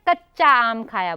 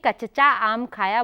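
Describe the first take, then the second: First: The ch sound is held as a double consonant. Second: The ch sound is split by a short vowel. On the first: The speaker calls it right. "कच्चा बोलते हैं।" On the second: The speaker calls it wrong. "अगर आप कचचा कहेंगे तो गलत होगा।"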